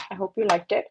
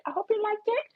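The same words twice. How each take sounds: First: Said in the usual way. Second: Higher, softer sing-song; soft sing-song version; high cutesy repeat. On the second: Pretend. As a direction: say it again sweet and high.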